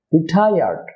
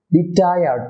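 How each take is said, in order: First: রিটায়ার্ড as "ri-THAI-yard", puff on the T; aspirated T. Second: রিটায়ার্ড with an unaspirated T, "ri-tayard"; hard T. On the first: Teacher models the corrected word for viewers, aspirated T. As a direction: stress the second syllable of রিটায়ার্ড, aspirated T, falling. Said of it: "হবে রিটায়ার্ড". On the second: Teacher shows viewers the form to avoid, hard T. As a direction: say the T of রিটায়ার্ড without a puff. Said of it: "না হয়ে হবে". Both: Shown as a demonstration.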